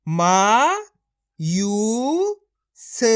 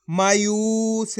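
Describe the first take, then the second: First: मा, यू, स each said apart and loud; split into syllables. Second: मायूस said whole, slow and joined; blended word. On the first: Teacher to pupils, sounding मा यू स apart. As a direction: break मायूस into मा यू स with pauses. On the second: Teacher to pupils, joining मायूस into one slow word. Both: Shown as a demonstration. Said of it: "एक ही अक्षर का उच्चारण करके पढ़ रहा हूँ".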